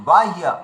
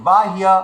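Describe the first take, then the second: No difference in how they are said.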